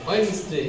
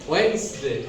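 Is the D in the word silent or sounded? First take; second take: silent; silent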